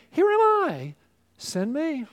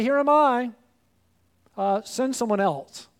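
First: "Here am I" leaps high and bright, then settles on "send me"; glad, eager offer of yourself; eager volunteer. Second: Eager start that drops into a shrug at "send someone else"; mock half-hearted volunteer; reluctant volunteer. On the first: Retold or imitated. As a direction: sound like you can't wait to be sent. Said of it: "just like Isaiah saying". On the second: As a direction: offer yourself, then back out. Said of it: "and we say".

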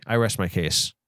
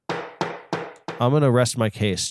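First: Said in the usual way. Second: Slow solemn pronouncement. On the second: Shown as a demonstration. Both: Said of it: "I'm sorry. I rest my case".

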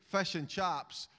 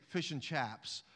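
First: Said in the usual way. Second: Attempted posh London accent. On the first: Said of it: "But in Scotland, when you say". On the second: Shown as a demonstration. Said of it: "I don't have a posh London accent".

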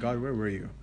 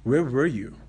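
First: Quiet hurt question. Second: A touch louder, a blunt challenge to God; bold demand. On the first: Antony asks God in pain, a softer hurt question. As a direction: let the hurt through, not the anger. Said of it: "look at him with boldness and say". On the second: Antony confronts God after his beating, a bold louder demand. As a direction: fire the question straight at God. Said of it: "looks at him and goes". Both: Retold or imitated.

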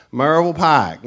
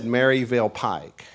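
First: "Marble Pike" as slurred mountain-accent Maryville; slurred local pronunciation. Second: "Maryville Pike" with every syllable separated out; clarified pronunciation. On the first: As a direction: run Maryville together so it sounds like "Marble Pike". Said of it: "what does that sound like to you?". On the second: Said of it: "I said Maryville Pike". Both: Shown as a demonstration.

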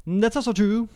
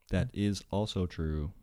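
First: High, put-on agreeing voice; silly high voice. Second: Said in the usual way. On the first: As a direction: echo it in a comically high voice. Comic repeat of own agreement.

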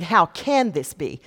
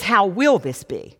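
First: "can" stressed in a slow question; slow question weighted on "can". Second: "will" stressed in a slow question; slow question weighted on "will". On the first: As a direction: lean on the word "can", unhurried. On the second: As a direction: lean on the word "will", unhurried. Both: Shown as a demonstration. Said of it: "Do you hear the difference?".

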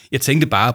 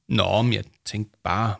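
First: Louder, firmer grumble; grumbled. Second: Grumbled. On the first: Paul retries his objection to the children, louder grumble. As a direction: grumble it with more push. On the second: Paul starts to object to the children, grumbling slowly. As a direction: grumble it, drawing the words out. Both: A narrator's reading. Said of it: "brummede Paul".

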